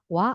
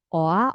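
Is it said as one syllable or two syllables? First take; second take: one syllable; two syllables. First: The two vowels merge into one gliding syllable. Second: The two vowels are said as separate syllables. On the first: The speaker calls it right. "Ini dibaca cepat coba" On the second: The speaker calls it wrong. "cuman cara bacanya bukan O A"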